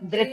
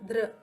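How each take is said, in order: First: The syllable ends with a clear 'i' vowel. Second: The syllable ends with a syllabic 'r' vowel. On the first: The speaker calls it wrong. "లేదంటే ధ్రి అంటారు కొంతమంది. కానీ actually ధృత" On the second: The speaker calls it right. "అది ఉకారం రాకూడదు, ఇకారం రాకూడదు"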